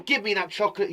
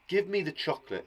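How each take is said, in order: First: It is said forcefully, as an exclamation. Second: It is said calmly, as plain speech.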